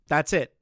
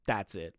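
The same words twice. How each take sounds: First: Louder, higher punch on "That's it"; emphatic insistence. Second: Said in the usual way. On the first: Real, not acted. Streamer shutting down any excuse for the developer, emphatic. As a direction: hit "That's it" hard as a final word. Repeats verdict far more forcefully.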